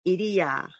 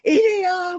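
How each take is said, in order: First: The name is spoken softly and tenderly. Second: The name is shouted loudly and harshly.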